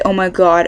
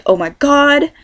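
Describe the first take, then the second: First: Said in the usual way. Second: High-pitched mock Valley girl "oh my god". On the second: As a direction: imitate the Californian cliché, voice up. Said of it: "A lot of people think we say".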